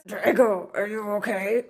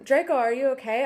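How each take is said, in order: First: It is said in a put-on gothic voice. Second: It is said in a normal reading voice.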